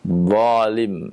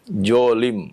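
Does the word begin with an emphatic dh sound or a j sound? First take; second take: emphatic dh; j. First: The word begins with an emphatic dh sound. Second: The word begins with a j sound. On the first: The speaker calls it right. "huruf dha" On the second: The speaker calls it wrong. "dengan huruf jim"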